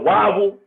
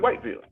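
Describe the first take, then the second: First: The name is clipped to sound like 'wobble'. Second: The name is said fully as 'white-ville'. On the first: This is how locals say it. "anybody from that city, they call it Wobble" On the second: This is how outsiders read it. "They're gonna say Whiteville"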